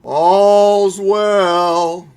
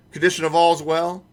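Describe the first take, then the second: First: Loud, ringing night-watch cry of all's well; hammed-up night watchman calling the hour; old-movie watchman call. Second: Said in the usual way. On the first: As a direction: call it out like a town crier from an old film. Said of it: "seen those old movies?".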